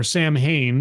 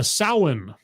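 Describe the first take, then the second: First: "Samhain" as spelt, sam-hain; "Samhain" anglicized as sam-hain. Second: "Samhain" as SOW-in, the mh like a w; "Samhain" with a silent m, SOW-in. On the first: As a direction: say "Samhain" phonetically, with m and h sounded. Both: Shown as a demonstration. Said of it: "depending on how you pronounce it".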